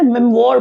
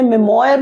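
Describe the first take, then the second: First: मेमोर said as me-mor, two syllables, no y glide; correct pronunciation. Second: मेमोयर said as me-mo-yar, three syllables with a y glide; wrong pronunciation. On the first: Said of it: "तो मेमोर पढ़ते हैं". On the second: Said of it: "इसे मेमोयर नहीं पढ़ते हैं". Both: Shown as a demonstration.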